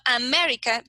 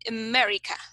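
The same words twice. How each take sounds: First: The unstressed vowels are full and clear. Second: The unstressed vowels are short schwa sounds. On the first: The speaker calls it wrong. "it is not America" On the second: The speaker calls it right. "but it's America. Okay, it is a short, short sound"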